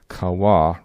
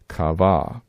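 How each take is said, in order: First: The middle consonant is a W sound. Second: The middle consonant is a V sound. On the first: This is likely closer to the ancient pronunciation. The speaker calls it right. "pronouncing waw with a W sound" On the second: The speaker calls it wrong. "a V sound that we see here in Strong's lexicon"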